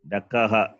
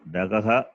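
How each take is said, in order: First: The middle consonant is a voiceless k. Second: The middle consonant is a voiced g. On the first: The speaker calls it right. "Dakaha, not" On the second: The speaker calls it wrong. "not Dagaha"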